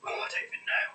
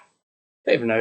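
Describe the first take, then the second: First: Breathy whispered aside to herself; whispering. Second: Said in the usual way. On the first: Real, not acted. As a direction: drop to a whisper, giving up.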